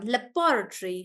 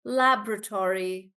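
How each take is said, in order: First: Laboratory as luh-BOR-uh-tree; British stress on BO. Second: Laboratory as LAB-ruh-tor-ee; American pronunciation. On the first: Teacher contrasting British with American, laboratory stressed on bo. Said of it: "That's the British one". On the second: Teacher echoing the American dictionary, laboratory as LAB-ruh-tor-ee. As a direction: say laboratory with a full "tory", American style. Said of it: "let's listen to the American one". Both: Shown as a demonstration.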